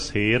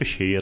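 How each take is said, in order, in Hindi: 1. शब्द की शुरुआत सादी s ध्वनि से होती है। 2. शब्द की शुरुआत sh ध्वनि से होती है। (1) "ਇੱਥੇ ਸੇਰ ਦਾ ਅਰਥ ਹੈ ਭਾਰ" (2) "ਸੱਸੇ ਦੇ ਪੈਰ 'ਚ ਬਿੰਦਾ ਲਾ ਕੇ ਬੋਲੇਗਾ ਸ਼ੇਰ"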